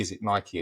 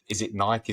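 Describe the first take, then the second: First: Nike as NY-kee, ending in ee; two-syllable Nike. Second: Nike as one syllable, rhyming with bike. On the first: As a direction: sound the final e of Nike as ee. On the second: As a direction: say Nike with no final ee sound. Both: Shown as a demonstration. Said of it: "how to pronounce the name".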